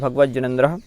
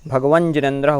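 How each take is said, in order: First: The words join with a doubled j sound. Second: The first word ends in an n sound. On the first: "होता है भगवज्जिनेन्द्र" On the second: "भगवन जिनेन्द्र होता है"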